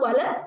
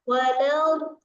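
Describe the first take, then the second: First: The final sound is cut off abruptly. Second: The final sound is drawn out and prolonged. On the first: The speaker calls it wrong. "nggak langsung wala, nggak bisa" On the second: The speaker calls it right. "nah nya itu namanya isti"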